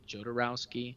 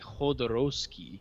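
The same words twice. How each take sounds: First: The name is pronounced the English way. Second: The name is pronounced the Spanish way. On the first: This is how most English speakers say it. "in English most people say" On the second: This is how Spanish speakers say it. "in Spanish they say"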